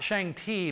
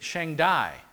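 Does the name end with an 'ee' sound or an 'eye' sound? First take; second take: ee; eye. First: The name ends with an 'ee' sound. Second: The name ends with an 'eye' sound. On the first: The speaker calls it wrong. "they actually pronounce that not Shang-Ti" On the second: The speaker calls it right. "but Shang-Dai"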